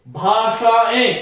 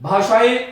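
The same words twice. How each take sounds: First: भाषाएं stretched slowly, nasal ending held; slow nasal demo. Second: Said in the usual way. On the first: Shown as a demonstration. Teacher showing the anunasik in भाषाएं, spoken slowly. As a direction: draw out भाषाएं so the nasal vowel is heard. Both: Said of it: "अनुनासिक का प्रयोग इसमें करना चाहिए".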